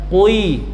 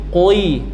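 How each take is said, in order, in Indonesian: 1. Bunyi k diikuti pembulatan bibir, kwi. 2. Bunyi k diikuti pembulatan bibir, kwi.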